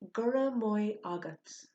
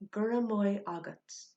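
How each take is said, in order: First: The word maith is said like moy. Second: The same.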